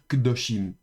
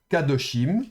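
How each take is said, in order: First: The first vowel is shortened almost to nothing. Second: The first syllable has a full 'a' vowel. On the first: The speaker calls it right. "on va dire kdoshim" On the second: The speaker calls it wrong. "au lieu de dire kadoshim, comme on aurait pu le penser"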